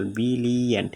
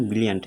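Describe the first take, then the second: First: "brilliant" stretched into three separate beats; syllable by syllable. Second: Said in the usual way. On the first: Shown as a demonstration. Teacher asking how many syllables, "brilliant" sounded out in three beats. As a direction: break "brilliant" into bi-li-ant. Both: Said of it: "এখানে কয় syllable".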